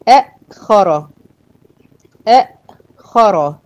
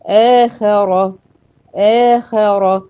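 First: أأخر with a hard stop after the first short a, then the rest; two hamzas in أأخر. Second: آخر with one hamza gliding into a long aa; eased madd in آخر. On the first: Teacher showing the difficult original form, أأخر with a caught glottal stop. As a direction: break أأخر sharply on the second hamza, slowly. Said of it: "فعشان كده النطق صعب". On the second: Teacher showing the eased form, آخر with a long smooth first vowel. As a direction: hold the opening aa of آخر, slow and unbroken. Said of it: "بحرف مد عشان نسهل النطق". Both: Shown as a demonstration.

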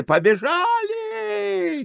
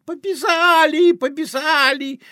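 First: Very high, long-drawn start call; desperate cry. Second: Put-on high, loud little boy lisping; boy's shout. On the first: Acted. Desperate voice in the carousel, high drawn-out cry. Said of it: "отчаянный голос в карусели". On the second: Greek boy dancing on the fence, high lisping shout. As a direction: squeal it like an excited, lisping urchin. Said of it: "кричит".

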